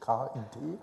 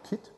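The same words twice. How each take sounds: First: It is spelled out letter by letter. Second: It is said as one short word. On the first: The speaker calls it wrong. "Sie kennen vielleicht das MIT, komischerweise sagt man beim KIT nicht KIT" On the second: The speaker calls it right. "Das klingt immer ein bisschen nach Fenster reparieren, aber wenig nach MIT"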